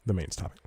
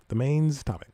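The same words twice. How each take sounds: First: Said in the usual way. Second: Higher-pitched repeat of the segment title; playful re-announcement. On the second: Real, not acted. Podcast host re-announcing his last segment, playfully higher. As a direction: punch it up higher, like a jingle tag.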